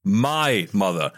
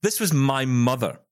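First: "My" drawn out slowly for emphasis; stress on MY. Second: Said in the usual way. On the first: Real, not acted. Host insisting mum would never flatter, slow stress on "My". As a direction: lean long and hard on "My".

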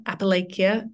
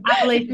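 First: Appalachia with a long "lay" and ending "kia"; trial pronunciation. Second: Appalachia as "appa-LAY-sha", higher and louder; corrected pronunciation. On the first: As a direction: offer Appalachia as "appa-LAY-kia", questioning. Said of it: "how do you pronounce that?". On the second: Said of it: "It was the third one". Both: Shown as a demonstration.

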